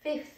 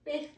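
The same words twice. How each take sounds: First: "fifth" with a clear th between the teeth; teacher modelling the th in "fifth"; fifth, tongue between teeth. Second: "fifth" again, th with the tongue out; repeated th model for pupils; fifth, tongue between teeth. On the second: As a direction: breathe the th in "fifth" past the tongue. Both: Shown as a demonstration. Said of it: "ちょっとこの舌が、で出た感じ".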